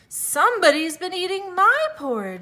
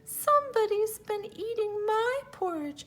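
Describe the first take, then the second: First: It is said in a medium-pitched voice. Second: It is said in a small, high voice.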